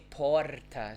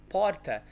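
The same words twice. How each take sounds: First: PORTA with a longer rolled R; more vibrating R. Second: PORTA with a short tapped R; brief São Paulo R in "porta"; usual vibrating R. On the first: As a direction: say "porta" as "porrr-ta". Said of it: "it's a little more". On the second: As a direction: say "porta" with one light tongue flap. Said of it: "their vibrating sounds are more". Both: Shown as a demonstration.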